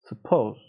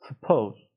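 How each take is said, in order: Both takes have the same delivery.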